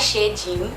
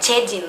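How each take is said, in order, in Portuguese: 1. O nome começa com som de sh. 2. O nome começa com som de ch. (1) "não é Chedin" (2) "Mesma coisa pra Chedin"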